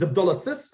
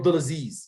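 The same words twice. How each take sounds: First: "Abdulaziz" ending in short, voiceless "-sis"; name ending in short -sis. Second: "Abdulaziz" ending in long, buzzed "-zeez"; name ending in long -zeez. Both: Shown as a demonstration. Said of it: "Which is it?".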